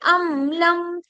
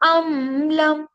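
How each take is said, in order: First: The m sound is held a moderate length. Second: The m sound is drawn out for too long. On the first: The speaker calls it right. "इतना पढ़ते हैं कि जो मीम जो है वो" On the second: The speaker calls it wrong. "इतना ज्यादा भी नहीं पढ़ते हैं"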